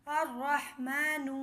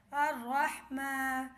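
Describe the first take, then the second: First: الرحمن said "ar-rahman", slow, ra doubled, no lam; silent lam. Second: الرحمن drawn out slowly as "ar-rahma", lam silent; slow syllable blend. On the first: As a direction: read الرحمن whole, lam silent, slowly. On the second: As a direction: stretch الرحمن slowly, ra doubled. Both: Shown as a demonstration. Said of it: "لام خاموش رہے گا".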